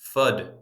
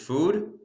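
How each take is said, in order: First: The vowel is a short u sound. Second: The vowel is a long oo sound. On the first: "or you're going to say fud, so it rhymes with good" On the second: "so it rhymes with food"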